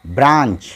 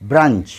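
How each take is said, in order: First: ब्रांच with long open aa, "braanch"; long "aa" vowel. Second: ब्रंच with short uh, "brunch"; short "u" vowel. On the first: Teacher giving the a sound to learners, long vowel. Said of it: "ये ए की आवाज़". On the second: Teacher giving the u sound to learners, short vowel. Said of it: "यहाँ यू की आवाज़". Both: Shown as a demonstration.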